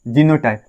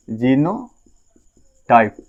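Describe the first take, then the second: First: Said in the usual way. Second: genotype stretched out very slowly, syllable by syllable; slow drawn-out term. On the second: Shown as a demonstration. Teacher spelling out the new word for students, very slow. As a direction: draw genotype out slowly for the class to repeat.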